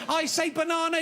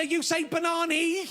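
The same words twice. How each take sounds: First: "banana" with a broad ah, ba-NAH-na; banana said banahna. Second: "banani" ending in a long ee, ba-NAH-nee; banana turned banani. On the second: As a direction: stretch "banani" with a long ee at the end. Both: Shown as a demonstration.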